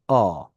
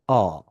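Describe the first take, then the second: First: The vowel sounds open and resonant, jaw dropped. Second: The vowel sounds open and resonant, jaw dropped.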